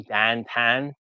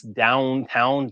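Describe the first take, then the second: First: "dantan" with flattened vowels, for downtown; Pittsburgh pronunciation. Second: Said in the usual way. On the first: Shown as a demonstration. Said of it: "they pronounce downtown, dantan". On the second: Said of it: "they pronounce downtown".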